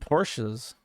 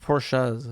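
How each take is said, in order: First: The name is said with an American pronunciation. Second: The name is said with a European pronunciation.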